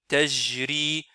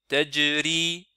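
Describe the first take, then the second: First: The j sounds like a French j. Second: The j does not sound like French j. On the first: The speaker calls it wrong. "ils le prononcent comme la lettre J en français" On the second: The speaker calls it right. "non, c'est Taj, Tajri"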